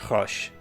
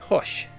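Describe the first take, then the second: First: The name is said the French way. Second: The same.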